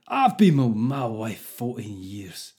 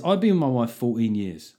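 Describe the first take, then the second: First: Slow, badly faked Scottish accent. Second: Said in the usual way. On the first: Podcaster reading Craig's letter to annoy Scottish people, bad Scottish accent. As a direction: put on a deliberately poor, drawn-out Scottish accent. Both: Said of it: "I've got to do this in Scottish accent".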